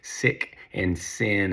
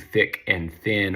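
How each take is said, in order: First: The words begin with an s sound. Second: The words begin with a th sound.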